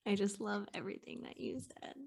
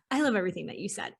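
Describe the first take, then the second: First: Breathy whispered awe, barely audible. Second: Said in the usual way. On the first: Real, not acted. Guest whispering admiration to host. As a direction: hush it like a secret compliment. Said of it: "spontaneous hushed reaction to guest". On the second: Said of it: "repeats aloud right after whisper".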